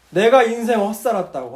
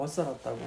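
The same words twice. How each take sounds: First: Louder regretful cry, beating the chest; mock lament. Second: Much softer, lower trailing echo. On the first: Dying deacon lamenting his wasted life, loud regret. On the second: Retold or imitated. Deacon repeating his regret, fading into a quiet murmur. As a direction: let the regret sink to a murmur. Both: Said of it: "자기 가슴을 자꾸 치더래요".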